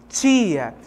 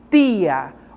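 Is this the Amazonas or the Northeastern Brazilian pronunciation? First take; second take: Amazonas; Northeastern. First: It is said with an Amazonas regional accent. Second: It is said with a Northeastern regional accent. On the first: "aqui no Amazonas, nós temos uma palavrinha que nós pronunciamos dessa forma" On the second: "lá no Nordeste existem regiões que ... eles fazem essa pronúncia de forma diferente"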